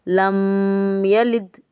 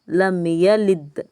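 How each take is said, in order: First: The m is held with a nasal hum. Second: The m is short, with no nasal hum. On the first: The speaker calls it wrong. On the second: The speaker calls it right.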